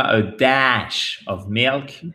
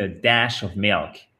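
First: "dash" dragged out slowly; slow "a daash of milk"; overlong vowel. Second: "dash" with a quick short vowel. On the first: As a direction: stretch the vowel of "dash" wrongly. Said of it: "C'est pas a dash of milk". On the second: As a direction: keep "dash" short in "a dash of milk". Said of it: "c'est une voyelle courte". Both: Shown as a demonstration.

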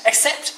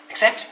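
First: Accept? pitched high with a sharp rise; baffled rising question. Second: Said in the usual way. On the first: Acted. Rabbit repeating Bear's word, high and baffled. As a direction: squeak Accept? up high in disbelief. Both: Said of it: "said Rabbit".

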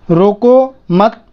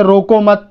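First: "रोको", फिर ठहराव, फिर "मत"; pause between words. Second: Said in the usual way. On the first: Shown as a demonstration. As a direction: say "रोको" slowly, stop, then "मत" on its own. Comma example split for clarity. ("रोको" के बाद अल्पविराम जितना रुककर "मत")

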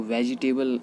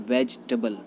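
First: वेजिटेबल as 've-ji-TAY-bul'; वेजिटेबल with a full long 'tay'; common mispronunciation. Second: वेजिटेबल as 'VEJ-tuh-bul'; वेजिटेबल with the i dropped, reduced 'tuh'; correct pronunciation. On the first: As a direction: say वेजिटेबल in four syllables with 'table'. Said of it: "नहीं बोला जाता है". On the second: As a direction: say वेजिटेबल in three syllables. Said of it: "इसको बोला जाता है". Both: Shown as a demonstration.

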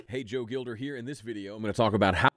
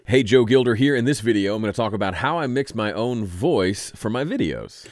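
First: Much softer, unprocessed playback of the voice; the dry take, far too quiet; raw quiet recording. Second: The same intro, much louder; the recording pushed up in level; louder raised take. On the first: Playing the raw take before mixing, very soft. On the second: Showing the voice brought up, clearly louder. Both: Real, not acted. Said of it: "raw recording".

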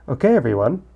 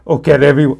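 First: Said in the usual way. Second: Loud, hammed-up bad impression; Arnold. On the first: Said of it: "Nah, I'm not gonna do it". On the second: Gamer trying Monika's line in a loud Arnold voice. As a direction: belt it out as a rough celebrity impression. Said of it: "with my Arnold voice".

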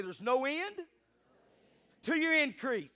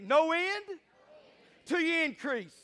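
First: Said in the usual way. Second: High, loud rallying proclamation; like you mean it. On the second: Shown as a demonstration. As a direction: declare it with conviction, pitch raised. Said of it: "Say it like you mean it".

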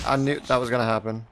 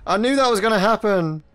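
First: Said in the usual way. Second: Exasperated outburst. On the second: Real, not acted. Just died, exasperated.

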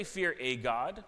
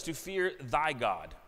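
First: "a" said as a slow, separate AY; stress on A. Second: THY set apart slowly in "fear thy God"; stress on THY. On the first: Preacher showing the wrong wording, stress on "a". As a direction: draw out "a" as a full "ay" before God. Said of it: "It doesn't say". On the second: Preacher contrasting Scripture's wording, stress on "thy". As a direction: lean slowly and firmly on "thy". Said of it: "It doesn't say, "Fear a God". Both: Shown as a demonstration.

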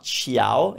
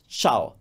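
First: CIAO drawn out as chee-ow; wrong two-sound version. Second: CIAO as one syllable, chow; correct Italian pronunciation. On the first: Teacher showing the mistake, slow CIAO split into chee-ow. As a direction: say "ciao" slowly with the i sounded separately. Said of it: "It's not". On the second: Teacher correcting learners, one-beat CIAO like chow. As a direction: say "ciao" with the i silent. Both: Shown as a demonstration.

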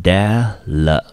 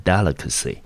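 First: Syllable by syllable. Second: Said in the usual way. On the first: Shown as a demonstration. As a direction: sound out "delicacy" one syllable at a time. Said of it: "我们就念成". (把 "delicacy" 一个音节一个音节拆开大声慢念) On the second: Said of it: "整个字我们就念成".

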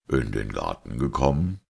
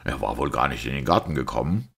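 First: Pensive echo with a rising end; musing. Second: Fast, mocking question with rising end; open scorn. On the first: Priest repeating the sceptic's question, musing. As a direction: repeat it as if thinking aloud. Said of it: "wiederholte Braun noch immer sinnend". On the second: Sceptic ridiculing the priest's claim about the garden, open scorn. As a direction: ask it quickly, derisively. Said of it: "Iwan zu offenem Hohne". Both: A narrator's reading.

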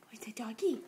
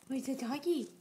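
First: Breathy hushed question; whispering. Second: Said in the usual way. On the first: Real, not acted. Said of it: "asking toddler, whispered then said". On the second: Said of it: "asking toddler, repeated aloud".

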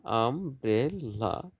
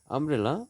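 First: "umbrella" slowly as আম, ব্রে, লা; three drawn-out beats in "umbrella"; split into syllables. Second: Said in the usual way. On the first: Shown as a demonstration. Teacher dividing syllables for students, "umbrella" slowly split in three. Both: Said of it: "syllable বিভাজন".

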